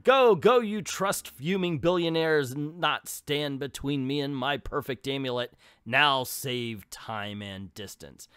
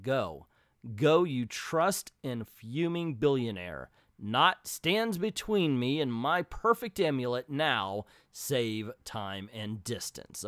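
First: First take of a villain line; a shrill first go at the villainess; rejected read. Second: Steadier second take of the line; better read. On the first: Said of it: "Let's read that again". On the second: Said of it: "Okay, that's better". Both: Shown as a demonstration.

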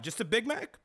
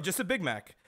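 First: "Just a Big Mac?" rising high on Mac in disbelief; a mock-incredulous check, "Just a Big Mac?" pitched up; questioning rise. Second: "just a Big Mac." falling firmly on Big; plain confirming statement, "just a Big Mac." ending down; flat confirming fall. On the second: Retold or imitated. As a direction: settle it: "just a Big Mac." with a firm drop on Big.

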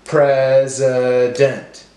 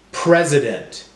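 First: Pres... i... dent, slowly; broken into syllables. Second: Said in the usual way. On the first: Shown as a demonstration. Teacher helping class count syllables, slow and segmented. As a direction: separate each syllable evenly. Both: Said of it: "break up our words into syllables".

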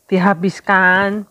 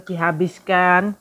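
First: A firm, louder repeat of Dihabiskan; louder insisting. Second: Said in the usual way. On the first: Real, not acted.

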